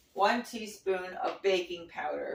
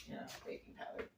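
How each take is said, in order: First: Said in the usual way. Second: Soft whispered repeat, barely voiced; a quick under-the-breath whisper; whispered aside. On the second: Real, not acted. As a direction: drop to a whisper as if to herself. Muttered aside to herself.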